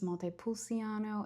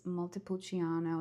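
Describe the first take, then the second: First: The c is not said with a ch sound. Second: The c is said with a ch sound. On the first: The speaker calls it wrong. "It's not pronounced Montepulciano" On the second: The speaker calls it right. "like the C is like a C H"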